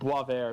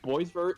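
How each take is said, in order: First: The name is pronounced with French-style sounds. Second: The name is pronounced with English-style sounds. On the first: The speaker calls it right. "It's pronounced Boisvert. It's French" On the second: The speaker calls it wrong. "isn't the actual uh, name or actual pronunciation"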